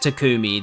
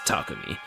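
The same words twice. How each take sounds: First: The middle syllable ku is emphasized. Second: The middle syllable ku is not emphasized. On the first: The speaker calls it wrong. "there would be like a a different emphasis on the the ku part of the name" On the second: The speaker calls it right. "but there isn't. So it's it's Takumi"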